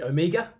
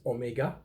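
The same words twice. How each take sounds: First: The word is pronounced the usual English way. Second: The word is pronounced the French way. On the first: "we usually call it Omega" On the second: "in French, it's Omega"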